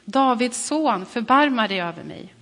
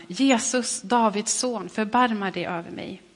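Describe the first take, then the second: First: Crying out even louder. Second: A raised cry, loudest on Jesus; calling out. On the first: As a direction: call out louder, stretching Davids son. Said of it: "ropade bara ännu mer". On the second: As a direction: call out to Jesus for mercy. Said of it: "ropade han". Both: Acted.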